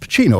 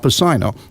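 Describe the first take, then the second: First: The name gets its familiar, usual pronunciation. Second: The name gets an unusual, odd pronunciation. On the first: This is how everyone says the name now. "of course, obviously" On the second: This is how people said the name back then. "That's how they were pronouncing it"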